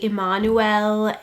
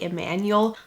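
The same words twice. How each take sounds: First: The name is said the German way. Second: The name is said the American way. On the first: The speaker calls it right. "In Germany, you would say" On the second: The speaker calls it wrong. "some people in America would say"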